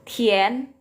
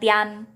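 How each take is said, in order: First: The vowel after i sounds like 'e'. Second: The vowel after i sounds like 'a'. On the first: The speaker calls it right. "Tapi mien, tien" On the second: The speaker calls it wrong. "bukan bacanya tian"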